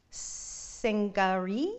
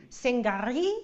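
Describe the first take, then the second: First: Sangari drawn out slowly, exotic-sounding; exotic pronunciation. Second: Sangari whispered breathily, rising at the end. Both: Shown as a demonstration. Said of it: "Make it sound kind of exotic".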